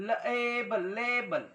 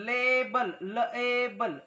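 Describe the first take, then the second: Both takes have the same delivery.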